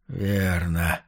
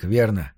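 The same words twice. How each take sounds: First: Low, soft, hoarse reply; rasped answer, dropped low and quiet; hoarse croak. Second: Said in the usual way. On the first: A narrator's reading. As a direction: croak it out weakly. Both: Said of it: "Прохрипел он".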